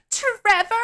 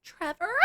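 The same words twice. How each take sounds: First: Much higher, louder urgent shout of his name; alarmed call. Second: Higher, softer questioning call; unsure call. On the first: Stacy hears screaming, loud high urgent call. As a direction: yell for him through the door. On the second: Stacy outside the bathroom door, soft, high questioning call. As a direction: ask his name tentatively. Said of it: "and she's like". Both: Retold or imitated.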